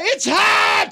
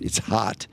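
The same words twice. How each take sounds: First: It is screamed loudly in an exaggerated way. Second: It is said plainly without screaming. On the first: The speaker calls it wrong. "screams, ... that was exaggerated" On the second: The speaker calls it right. "She just said"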